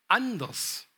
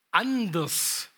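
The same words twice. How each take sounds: The two takes are said the same way.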